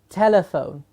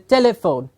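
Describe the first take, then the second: First: The word contains no short i sound. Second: The word contains a short i sound. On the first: The speaker calls it right. "What we are saying is telephone" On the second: The speaker calls it wrong. "If we mispronounce it, it's a telephone"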